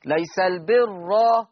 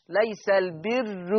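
First: ليس البر slow, heavy open ra; Hafs heavy open ra. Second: ليس البر slow, with a thin ra; Warsh light ra. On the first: Teacher recalling the Hafs reading slowly. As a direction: recite ليس البر with a full ra. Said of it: "حفص راء مفتوحة ومفخمة". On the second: Teacher contrasting the Warsh reading, thin ra. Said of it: "ورش مضمومة ومرققة". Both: Shown as a demonstration.

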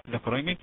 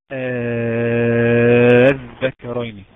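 First: Said in the usual way. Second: الذكرين with an opening «آ» held long and loud; madd elongation. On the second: Shown as a demonstration. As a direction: chant الذكرين on a drawn-out first vowel. (مدّ طويل مرتّل في أول الذكرين) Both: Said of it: "طيب مثال ايه؟".

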